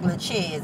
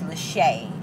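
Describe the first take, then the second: First: The final z sound is pronounced. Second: The final z sound is silent. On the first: The speaker calls it wrong. "it looks like" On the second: The speaker calls it right. "but it's [name]. It's French"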